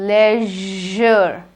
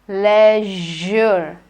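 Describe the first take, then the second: No difference in how they are said.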